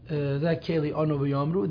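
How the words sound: The last word is said as yomru. This is the standard grammatical reading. "They don't pronounce it that keli onu v'yomru"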